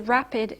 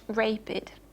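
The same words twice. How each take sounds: First: The stressed vowel is short and checked. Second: The stressed vowel is long and free. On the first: The speaker calls it right. "you say rapid" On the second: The speaker calls it wrong. "and not rapid"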